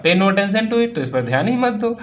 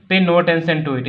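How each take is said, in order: First: Mock roar. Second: Said in the usual way. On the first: Uncle roaring at the farmer to ignore the pain, raised voice. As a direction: boom it out like the uncle. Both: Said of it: "My uncle Khosrow roared".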